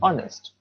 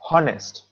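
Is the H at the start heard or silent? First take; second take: silent; heard. First: The word begins with a vowel, H silent. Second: The word begins with an audible H sound. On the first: The speaker calls it right. "H is silent" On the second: The speaker calls it wrong. "We don't say honest"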